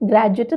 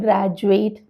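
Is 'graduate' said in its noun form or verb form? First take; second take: noun form; verb form. First: The word is said in its noun form. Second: The word is said in its verb form. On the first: The speaker calls it wrong. "ഗ്രാജുവേറ്റ് എന്നല്ല" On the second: The speaker calls it right. "അവിടെ പറഞ്ഞത് കേട്ടോ"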